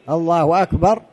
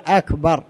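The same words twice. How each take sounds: First: "أكبر" said as "wakbar", joined to "الله"; hamza turned to waw. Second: "أكبر" with a crisp glottal a, no waw; clear hamza. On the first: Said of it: "بدلا من الألف واو". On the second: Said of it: "الأولى أن يقول". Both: Shown as a demonstration.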